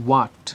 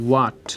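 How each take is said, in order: Both takes have the same delivery.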